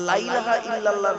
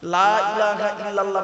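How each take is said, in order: First: The opening 'la' is short and clipped. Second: The opening 'la' is drawn out long. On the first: There surely is a deity besides God. The speaker calls it wrong. "তাড়াহুড়ো করে পড়বেন না" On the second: There is no deity except God. The speaker calls it right. "লামে একটু লয়াকারে টান দেবেন"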